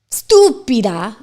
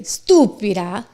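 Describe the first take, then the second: First: "stúpida" said without a leading e, stress on ú; stretched "stúpida", no e at the start. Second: "estúpida" in Spanish with a leading e, stress on ú; "estúpida" opening with an e sound. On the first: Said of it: "So when I say". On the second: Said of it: "I guess I need to say". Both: Shown as a demonstration.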